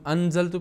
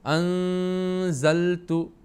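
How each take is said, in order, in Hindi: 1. n साफ़ बोला जाता है, नाक में रोका नहीं जाता। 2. n नाक में छिपा हुआ और रुका हुआ होता है। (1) "ये कायदे के हिसाब से गलत होगा। उसका मतलब है इख्फ़ा नहीं करेंगे बल्कि इजहार हम करेंगे।" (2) "नाक में अपनी आवाज़ को रोकेंगे।"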